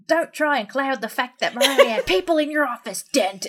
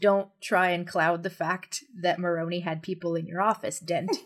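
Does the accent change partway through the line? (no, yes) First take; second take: yes; no. First: It starts accented and ends exaggeratedly American. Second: It is said in one plain accent throughout. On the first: "he starts with the accent and then he finishes it off with, like, an overcorrected American accent" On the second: "the line is"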